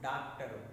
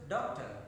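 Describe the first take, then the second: First: It is said with a Telugu accent. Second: It is said with an English accent. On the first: The speaker calls it wrong. "What is pronounced in Telugu?" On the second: The speaker calls it right. "According to that rules"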